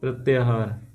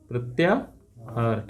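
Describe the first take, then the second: First: Said in the usual way. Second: प्रत्याहार slowly, split as प्रत्या, pause, हार; slow dictation. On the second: Shown as a demonstration. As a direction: break प्रत्याहार in two for learners, low and soft. Teacher repeats term, broken up. (प्रत्याहार को धीरे-धीरे तोड़कर बोलें)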